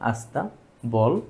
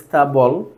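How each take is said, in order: First: An 'aa' vowel is added before the cluster. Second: The word starts directly with a consonant cluster. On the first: This is the word as it is spoken. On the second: This is the word as it is written.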